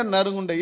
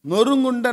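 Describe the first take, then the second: First: நறுங்குண்ட said with a flat "na" instead of "no", pitch dropping; mispronounced நறுங்குண்ட with a flat "na" sound; wrong pronunciation. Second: நொறுங்குண்ட said with a rounded "no" and a raised pitch; careful நொறுங்குண்ட with a clear rounded "noru"; correct pronunciation. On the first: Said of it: "நறுங்குண்ட இருதயம்". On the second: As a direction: stress the rounded first syllable of நொறுங்குண்ட, pitched up. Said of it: "இருதயம் நொறுங்குண்ட". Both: Shown as a demonstration.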